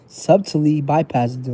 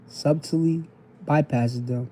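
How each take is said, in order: First: The phrase is read quickly. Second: The phrase is read slowly. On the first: The speaker calls it wrong. "I be reading too fast" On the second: The speaker calls it right. "I'm gonna slow it down for y'all"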